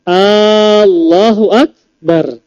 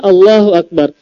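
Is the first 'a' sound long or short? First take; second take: long; short. First: The opening 'a' is drawn out long. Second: The opening 'a' is short. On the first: It asks whether Allah is the greatest. The speaker calls it wrong. "tidak sah kalau seandainya A-nya dipanjangkan" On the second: Allah is the greatest. The speaker calls it right. "Kan seharusnya Allahu Akbar"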